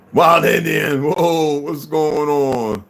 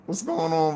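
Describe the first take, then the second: First: Loud, slow, stretched-out shout; shouted greeting. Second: Said in the usual way. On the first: Real, not acted. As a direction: call out the hello long and loud.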